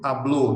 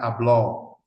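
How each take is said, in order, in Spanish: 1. La o final es cerrada. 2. La o final es abierta.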